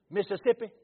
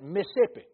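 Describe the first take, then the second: First: "Mississippi" spelled out as "Miss-iss-ip-pi", every syllable careful and loud; the old fancy way. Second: "Mississippi" clipped to "Miss-sippi", middle syllable swallowed, loud and rising; his own Mississippi way. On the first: Preacher mimicking how the northern folk say it, careful four-syllable "Mississippi". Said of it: "How y'all say it?". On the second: Preacher showing the congregation how he says his state's name, clipped "Miss-sippi". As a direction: say "Mississippi" the home way, fast and run together. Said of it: "You heard what I said?".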